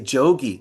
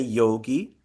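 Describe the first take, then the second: First: The word begins with a j sound. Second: The word begins with a y sound. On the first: This is the northern regional pronunciation. "in North India, they say jogi" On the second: This is the southern regional pronunciation. "In South India, they say yogi"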